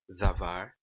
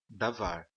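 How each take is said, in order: First: The first consonant is soft and breathy. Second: The first consonant is a hard d. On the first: "um som mais aspirado" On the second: "eles pronunciam como davar"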